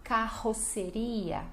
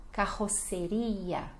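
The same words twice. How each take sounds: First: Carroceria slowly, ka-ho-se-RI-a; slow model word. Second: Carroceria slowly, throaty R; slow model word. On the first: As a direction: carroceria syllable by syllable. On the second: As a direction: Carroceria drawn out. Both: Shown as a demonstration. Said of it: "E a pronúncia é essa".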